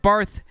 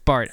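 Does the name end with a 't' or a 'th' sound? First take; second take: th; t. First: The name ends with a 'th' sound. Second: The name ends with a 't' sound. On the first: This follows the spelling. The speaker calls it wrong. "It's spelled Barth" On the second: This is how the name is really said. The speaker calls it right. "but it's Barth"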